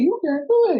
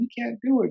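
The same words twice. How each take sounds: First: It is said in a Mickey Mouse voice. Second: It is said in a normal, critical voice.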